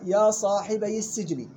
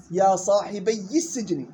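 First: يا صاحبي السجن said slowly with a light ya and a kasra; correct reading. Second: يا صاحبي السجن said slowly with a stressed ya; students' wrong reading. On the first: Shown as a demonstration. Teacher showing the correct reading, slow. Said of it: "كسر مع تخفيف الياء". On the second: Retold or imitated. Teacher imitating a student's error, slow. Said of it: "غلط".

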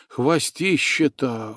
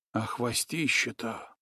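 First: „хвостище-то” stretched out slowly at normal volume; slow marvel. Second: Much softer, marvelling „хвостище-то”; awed hush. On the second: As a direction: breathe out „хвостище-то” in wonder. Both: A narrator's reading. Nastya marvels at tail.

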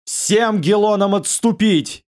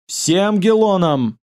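First: Slow, high otherworldly command; inhuman voice. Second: Slow, high inhuman cry; a dreadful voice not of a man. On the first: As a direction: order the retreat in a monstrous voice. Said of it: "нечеловеческим голосом". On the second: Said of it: "вскрикнул этот человек нечеловеческим голосом". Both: Acted.

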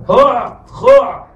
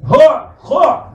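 First: هوع خوع said slowly, ending on a rise; slow throat sounds. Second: هوع خوع said slowly, dwelling on the throat letters; slow throat sounds. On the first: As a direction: drag هوع خوع out with a rising end. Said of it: "عين عين ليس غين". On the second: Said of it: "نفس المخرج". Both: Shown as a demonstration.

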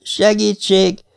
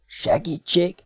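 First: High, slow, drawn-out plea; eerie high call, slowly drawn; thin little voice. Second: Thin, hushed little voice; small, high whisper. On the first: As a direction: stretch the word in a small, thin voice. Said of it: "szólalt meg újra az a halk, vékony hang". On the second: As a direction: softly whisper a faint plea. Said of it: "suttogta ekkor tőle balra egy egészen halk, vékony hang". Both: A narrator's reading.

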